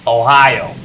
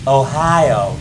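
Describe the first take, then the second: First: It is said in a New York accent. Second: It is said in a Louisiana accent. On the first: "something like Ohio in New York" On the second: "Ohio in like Louisiana"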